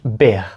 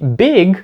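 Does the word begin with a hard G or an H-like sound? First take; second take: H-like sound; Hard G. First: It begins with a breathy H-like sound. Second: It begins with a hard G sound. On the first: The speaker calls it wrong. "ці люди кажуть «big»... звучить не дуже" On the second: The speaker calls it right. "в слові «big»"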